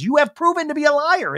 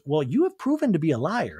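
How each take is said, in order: First: Much higher and louder, jabbing at liar; hammed-up outraged repeat; mock heated accusation. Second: Said in the usual way. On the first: Host voices Crystal repeating her accusation higher and louder.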